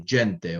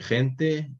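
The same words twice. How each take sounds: First: It uses the older Ladino pronunciation. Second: It uses the modern Spanish pronunciation. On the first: "you say gente" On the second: "instead of saying gente"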